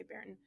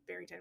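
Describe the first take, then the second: First: Barrington squeezed short, middle swallowed; clipped hometown Barrington; local pronunciation. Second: Barrington with the middle syllable sounded; careful three-part Barrington; outsider pronunciation. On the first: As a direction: say Barrington as the locals do, run together. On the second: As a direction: say Barrington out in full, unlike the locals. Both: Shown as a demonstration. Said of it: "We say Barrington".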